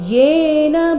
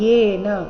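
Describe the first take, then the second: First: The word starts with a clear y sound. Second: The word starts directly with a vowel. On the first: The speaker calls it right. "ಯೇ ಸ್ಪಷ್ಟವಾಗಿ ಬರಬೇಕು" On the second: The speaker calls it wrong. "ಇಲ್ಲಿ ಏನ ಅಂತ ಇಲ್ಲ"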